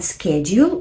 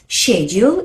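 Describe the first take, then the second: First: The word is said the American way. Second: The word is said the British way. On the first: "which I personally prefer, is American" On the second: "is a British way"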